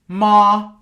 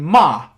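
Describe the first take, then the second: First: The pitch stays high and level. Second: The pitch falls sharply from high to low. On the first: "which is the high tone" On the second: "which is from high to low"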